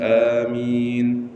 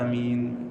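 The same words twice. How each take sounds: First: It is said loudly. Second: It is said quietly.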